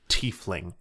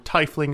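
First: The first syllable does not sound like 'tie'. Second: The first syllable sounds like 'tie'. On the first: The speaker calls it right. "It is tiefling" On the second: The speaker calls it wrong. "If it were tiefling, it would be T-E-I"

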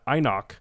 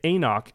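First: The first vowel sounds like 'eye'. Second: The first vowel does not sound like 'eye'. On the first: This is the pronunciation that follows the spelling. The speaker calls it right. "AI makes the I sound" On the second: This is the official guide's pronunciation. The speaker calls it wrong. "they wanted to say Enoch"

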